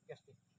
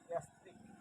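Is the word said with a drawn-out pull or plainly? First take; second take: plain; drawn-out. First: It is said plainly, without a drawn-out pull. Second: It is said with a drawn-out pull. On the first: This is how it is said in Bangladesh. "আমাদের দেশে আমরা স্বাভাবিকভাবে বলে থাকি" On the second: This is how it is said in Malay. "একটু টান দিয়ে বলে"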